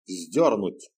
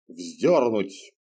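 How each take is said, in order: First: A hint of bored command; curt order. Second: Lightly voiced stern command; curt order. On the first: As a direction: repeat the order, uninterested. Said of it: "повторил приказ всадник". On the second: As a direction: snap out a death order. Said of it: "распорядился гонец". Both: A narrator's reading.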